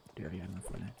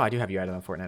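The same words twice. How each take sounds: First: Much softer repeat, to himself; quiet self-confirming mutter; muttered under breath. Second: Said in the usual way. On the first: Real, not acted. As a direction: mumble it as a private reminder.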